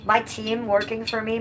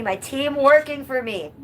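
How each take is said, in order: First: Said in the usual way. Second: Proud cheer. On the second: Shown as a demonstration.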